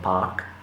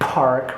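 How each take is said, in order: First: The r sound is left silent. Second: The r sound is clearly pronounced. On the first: This is not the American way. "rather than park" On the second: This is the American way. "so they say park"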